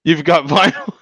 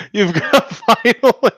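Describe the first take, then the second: First: Said in the usual way. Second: Drawn-out laughing repeat. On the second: Real, not acted. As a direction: laugh through the words.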